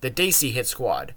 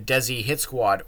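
First: Desi gets its original South Asian pronunciation. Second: Desi gets its common American wrestling pronunciation. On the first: The speaker calls it right. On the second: The speaker calls it wrong.

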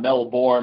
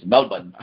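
First: The ending is a full 'bourne' sound. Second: The ending is a short reduced syllable. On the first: The speaker calls it wrong. "it's not Melbourne, like the Bourne identity" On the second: The speaker calls it right. "It's Melbourne"

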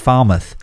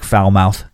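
First: The name does not sound like 'foul mouth'. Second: The name sounds like the words 'foul mouth'. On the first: The speaker calls it right. "It's just Falmouth" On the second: The speaker calls it wrong. "everybody's instinct is just to be like foul mouth"

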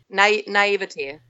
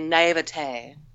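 First: The word is said in its plain, everyday pronunciation. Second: The word is said in a fancier, pretentious pronunciation.

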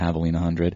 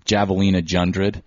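First: The second word starts with an H sound. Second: The second word starts with a J sound. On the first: "or most people pronounce it correctly" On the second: "as I like to call it"

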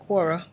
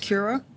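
First: The name begins with a 'kw' sound. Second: The name begins with a 'ky' sound. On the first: The speaker calls it wrong. "I've been saying it wrong. I've been calling it Quora" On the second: The speaker calls it right. "but it's Kiora"

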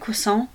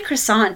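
First: The word is said with French-style pronunciation. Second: The word is said with plain English pronunciation. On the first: The speaker is being showy about the word. The speaker calls it wrong. "no need to add the Frenchness of the word" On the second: The speaker is ordering the word plainly. The speaker calls it right. "just say croissant"

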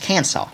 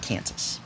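First: The word ends with a 'saw' sound. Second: The word ends with a 'sas' sound. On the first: "They actually have to pronounce their name Kansas now, though, because the Arkansas Razorbacks have kicked their butt" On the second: "not Kansas"

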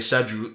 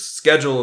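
First: It is said in a British accent. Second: It is said in an American accent. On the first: "the British on TV, they will say schedule" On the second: "according to U.S. English, is schedule is correct pronunciation"

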